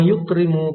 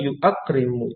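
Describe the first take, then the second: First: It is said without a glottal stop, three syllables. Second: It is said with a glottal stop, four syllables. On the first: This is the lighter form actually used. The speaker calls it right. "dibaca lebih ringan" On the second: This is the heavier underlying original form. The speaker calls it wrong. "Itu susah"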